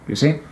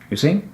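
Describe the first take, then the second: Both takes have the same delivery.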